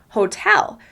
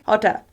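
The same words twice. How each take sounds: First: The stress is on the second syllable. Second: Both syllables have the same length and weight. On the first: The speaker calls it right. "We pronounce the word hotel" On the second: The speaker calls it wrong. "make both syllables of the word hotel exactly the same length"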